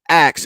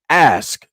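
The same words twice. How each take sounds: First: The word is said in a shortened form. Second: The word is said in its full form. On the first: "I say ask ... because I like to cut shit down" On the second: "instead of ask"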